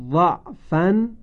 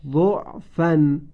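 First: ضعفن said slowly with a on the first letter; read with fatha. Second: ضعفن said slowly with u on the first letter; read with damma. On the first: Teacher demonstrates first reading, slow. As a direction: say ضعفن as dafan, drawn out. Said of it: "وجه اول". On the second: Teacher demonstrates second reading, slow. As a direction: say ضعفن as dufan, drawn out. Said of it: "وجه دوم". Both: Shown as a demonstration.

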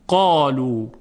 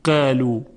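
First: قالو with a thick, full ا; heavy alif. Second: قالو with a light, thin ا; thin wrong alif. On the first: Teacher giving the right, heavy قالو. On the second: Teacher showing the wrong, light قالو. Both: Shown as a demonstration.

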